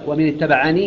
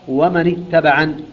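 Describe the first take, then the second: First: The last word ends with a long ee vowel. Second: The last word ends without a long ee vowel. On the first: The reading continues into the following words. "في حال الوصف يثبتها" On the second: The reading stops on this word. "أما إذا وقف عليها يقرأ"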